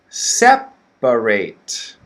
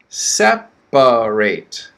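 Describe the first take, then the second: First: The word is said with three syllables. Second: The word is said with three syllables.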